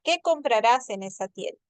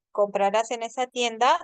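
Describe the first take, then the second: First: Qué hit first and strongest, then falling to the end; stress on QUÉ. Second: Yes-no question, voice rising on tienda at the end; rising question tune. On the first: Teacher demonstrating a wh-question to students, Qué stressed. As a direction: lead with a punched Qué and let it fall. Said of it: "sino te dirá". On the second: Teacher demonstrating a yes-no question to students, rising on tienda. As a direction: lift the end of the question, tienda climbing upward. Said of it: "inflexión tonal es ascendente". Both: Shown as a demonstration.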